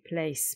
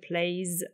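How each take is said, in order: First: The word ends with an s sound. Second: The word ends with a z sound. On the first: The speaker calls it wrong. "نمیگیم plays piano. plays غلطه" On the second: The speaker calls it right. "بعضی وقتا تلفظش میشه ز. اینجا میشه plays"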